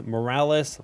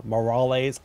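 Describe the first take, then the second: First: Morales said as mo-RAL-es with flat English s; the earlier Morales take, mo-RAL-us; old pronunciation. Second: Morales said Spanish-style as mo-RAH-lays; corrected pronunciation. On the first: [name] repeating his first Morales, mo-RAL-us. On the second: [name] attempting a corrected Morales, mo-RAH-lays. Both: Shown as a demonstration. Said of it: "pronounced Morales incorrectly".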